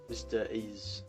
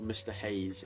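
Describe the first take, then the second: First: The name starts without any H sound. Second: The name starts with a clear H sound.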